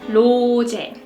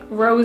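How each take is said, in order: First: The name begins with a sound close to L. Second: The name begins with an English R sound. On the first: The speaker calls it right. "it's more like the L sound, not the R sound" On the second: The speaker calls it wrong. "We don't like Rose"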